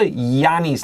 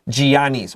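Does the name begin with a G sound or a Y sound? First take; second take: Y sound; G sound. First: The name begins with a Y sound. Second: The name begins with a hard G sound. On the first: The speaker calls it right. "like yes or yellow" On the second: The speaker calls it wrong. "we don't say"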